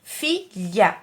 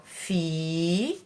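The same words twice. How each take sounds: First: "Filha" in two short separate beats; syllable split. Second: "Filha" with a long held fi, softer; drawn-out syllables. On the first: ("Filha" em duas sílabas curtas) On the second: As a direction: stretch fi, pause long, then lha. ("Filha" com sílabas bem esticadas) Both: Shown as a demonstration. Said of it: "Duas sílabas".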